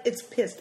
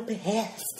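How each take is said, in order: First: Said in the usual way. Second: "pissed" split into "pi-hessed"; mock-wrong "pissed", stretched to two syllables; mangled pronunciation. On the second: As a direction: break "pissed" in two with a breathy h. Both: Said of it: "She can't even say it right".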